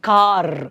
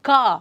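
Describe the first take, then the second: First: The final r sound is fully and harshly pronounced. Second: The final r sound is silent. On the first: "ಆ ರ ಸೌಂಡನ್ನು complete ಆಗಿ ಹೇಳೋದು it sounds bit harsh" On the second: "British people pronounce it as ಕಾ"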